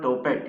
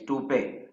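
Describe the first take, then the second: First: The word ends with a clear t sound. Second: The word ends without a t sound. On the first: The speaker calls it wrong. "It's not topet" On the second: The speaker calls it right. "it's toupe"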